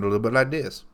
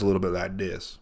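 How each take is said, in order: First: The voice has a higher, lighter timbre. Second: The voice has a deeper, lower timbre. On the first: It is the speaker's own voice. "and I sound a little bit like this" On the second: It imitates someone else's voice. "He's got sort of a lower timbre than I do. So he sounds a little bit like this"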